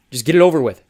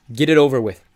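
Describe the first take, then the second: First: Loud, forced, bitter; louder, push it out through the hurt; angry outburst. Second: Louder, bitter, resigned; bitter outburst. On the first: Thomas repeating his demand to the traitors, loud and angry. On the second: Thomas to Teresa and Eris, giving up, loud and bitter. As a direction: spit it out and be done. Thomas, eyes shut, gives up. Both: Acted.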